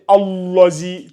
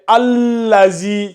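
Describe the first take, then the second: First: The L sound is heavy and emphatic. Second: The L sound is light, not emphatic. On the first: The speaker calls it wrong. "attention à ne pas me dire Allazi" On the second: The speaker calls it right. "le lame là, j'ai dit tout à l'heure qu'il n'est pas, euh, comment on appelle ça, emphatique"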